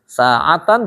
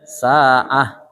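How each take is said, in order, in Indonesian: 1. Kata ini diakhiri dengan -tan, bunyi n. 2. Kata ini diakhiri dengan bunyi h yang berhenti (diam).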